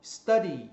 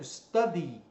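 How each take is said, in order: The two takes are said the same way.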